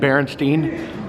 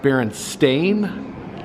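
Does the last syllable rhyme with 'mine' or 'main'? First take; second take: mine; main. First: The last syllable rhymes with 'mine'. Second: The last syllable rhymes with 'main'. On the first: The speaker calls it wrong. "I think I just said it wrong" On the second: The speaker calls it right. "it's truly pronounced Berenstain"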